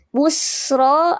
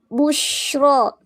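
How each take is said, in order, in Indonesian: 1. Konsonan tengahnya desis s yang tajam. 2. Konsonan tengahnya desis sh yang melebar. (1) "yang pertama itu sofir" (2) "desisannya tafasi, desisan uh, sebaran nafas"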